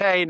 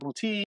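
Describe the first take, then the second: First: The name ends with an 'ay' vowel. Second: The name ends with an 'ee' vowel. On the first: The speaker calls it right. "it's Bootay" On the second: The speaker calls it wrong. "not Booty"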